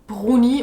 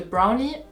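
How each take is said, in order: First: It is said with a French accent. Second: It is said with an English accent. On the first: "les Français qui prononcent les mots d'origine anglaise d'une manière un peu bizarre" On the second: "au lieu de"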